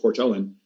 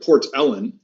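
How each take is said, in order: First: The stress is on the second syllable. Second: The stress is on the first syllable. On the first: "the accent is often on the second syllable of a word in Gaelic" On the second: "instead of"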